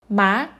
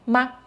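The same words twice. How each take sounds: First: The pitch rises from mid to high. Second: The syllable is short and light, without set pitch. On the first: It means hemp. "Ma means nom" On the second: It marks a question. "Ma is a question particle"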